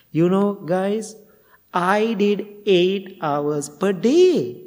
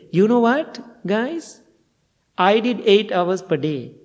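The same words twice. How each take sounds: First: Slow, drawn-out boast pitched higher; a student announcing his long sitting, slow and proud; loud bragging. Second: Hammed-up bragging to the group; mock boast. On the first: Retold or imitated. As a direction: stretch each word like a proud show-off. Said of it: "he was so loud". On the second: Boast repeated a second time.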